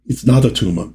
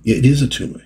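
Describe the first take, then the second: First: "not" pushed in "It's not Atuma"; stress on not. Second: "is" lifted higher in "It is Atuma", falling after; stress on is. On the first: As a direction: lean on "not" as the wrong claim. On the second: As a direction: insist with "is" as the correction. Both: Shown as a demonstration.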